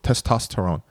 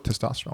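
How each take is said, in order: First: Every sound of the word is carefully pronounced. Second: The word is said loosely with sounds run together. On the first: The speaker sounds uncool. "if you say every letter in it, enunciate, you don't sound cool" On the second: The speaker sounds tough and cool. "you sound gangster"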